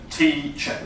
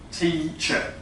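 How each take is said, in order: First: The first vowel is high and closed. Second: The first vowel is high and closed.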